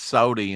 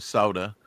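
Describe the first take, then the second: First: The word ends in an 'ee' sound. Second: The word ends in an 'uh' sound. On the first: This is how someone else says it. "He says sody" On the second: This is the usual way to say it. "instead of soda"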